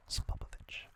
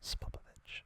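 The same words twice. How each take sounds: The two takes are said the same way.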